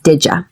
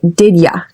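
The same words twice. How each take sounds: First: The two words blend into one reduced word. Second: Both words are said separately and fully. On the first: "many Americans just simplify this as" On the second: "It's also acceptable to say"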